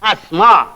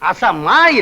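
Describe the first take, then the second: First: The s and m are joined with no vowel. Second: A vowel is sounded between the s and m. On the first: The speaker calls it right. "அஸ்மா என்று சொல்ல வேண்டும்" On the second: The speaker calls it wrong. "அசமா இல்ல"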